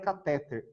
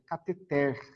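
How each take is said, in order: First: The stress is not on the last syllable. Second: The stress is on the last syllable. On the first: The speaker calls it wrong. "Não é catéter" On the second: The speaker calls it right. "Ela é uma oxítona"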